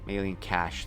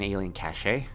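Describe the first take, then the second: First: The word cache is said with one syllable. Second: The word cache is said with two syllables. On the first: The speaker calls it right. "that's what it's pronounced as" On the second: The speaker calls it wrong. "I've probably triggered somebody really badly with that mispronunciation"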